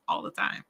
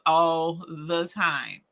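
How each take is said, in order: First: Softer, voiceless aside with a laugh; hushed admission. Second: "all the time" slow and drawn out; emphatic admission. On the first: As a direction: confess it under your breath, amused. Repeats the confession quietly. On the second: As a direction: stretch each word of "all the time". Confessing mistakes, repeats it. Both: Real, not acted.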